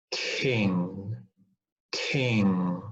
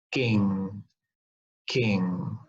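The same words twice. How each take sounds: First: KING with a puff of air after the K; aspirated K. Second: KING with no puff of air, like "ging"; unaspirated K. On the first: Teacher giving another correct example, KING with aspiration. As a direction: breathe out hard on the K of KING. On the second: Teacher showing what to avoid, KING without aspiration. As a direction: hold the breath back on the K of KING. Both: Shown as a demonstration. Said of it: "but not".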